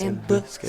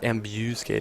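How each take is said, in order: First: The middle syllable is reduced to a bare b. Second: The middle syllable has a full 'bu' vowel. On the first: The speaker calls it right. "but a b sound" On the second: The speaker calls it wrong. "not a bu"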